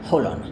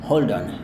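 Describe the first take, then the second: First: The d sound in hold is left out. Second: The d sound in hold is pronounced. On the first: "dia seolah-olah D-nya tidak dilafalkan" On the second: "kalau Anda lafalkan dengan yang ini, D-nya ini"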